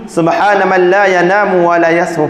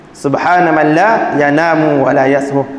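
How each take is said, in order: First: Said in the usual way. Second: Slow recitation. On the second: Shown as a demonstration. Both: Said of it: "sunat membaca padanya dalam sujud".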